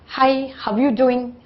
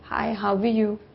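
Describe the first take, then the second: First: The greeting sounds lively and enthusiastic. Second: The greeting sounds flat and dull.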